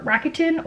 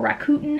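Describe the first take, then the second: First: Rakuten said as RACK-uh-tin; alternative pronunciation of Rakuten. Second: Rakuten said as ra-KOO-ten; alternative pronunciation of Rakuten. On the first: Vlogger unsure of the cashback site's name, Rakuten as RACK-uh-tin. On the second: Vlogger offering another guess at the site's name, Rakuten as ra-KOO-ten. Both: Shown as a demonstration. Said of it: "however you pronounce it".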